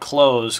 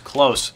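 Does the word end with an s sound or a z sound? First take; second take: z sound; s sound. First: The word ends with a buzzing z sound. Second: The word ends with a hissing s sound. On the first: It is read as the verb meaning to finish a game. The speaker calls it wrong. "Not Close" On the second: It is read as the adjective meaning near. The speaker calls it right.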